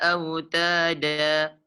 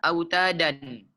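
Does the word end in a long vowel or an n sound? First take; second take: long vowel; n sound. First: It ends in a long a vowel. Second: It ends in a short a and n. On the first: The speaker calls it right. "dipanjangkan dua harkat" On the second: The speaker calls it wrong. "tidak dibaca autadan. Salah"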